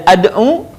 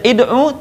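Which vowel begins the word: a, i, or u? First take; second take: a; i. First: The word begins with an a vowel. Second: The word begins with an i vowel. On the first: "dibaca tidak ad'u" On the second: "tidak dibaca id'u"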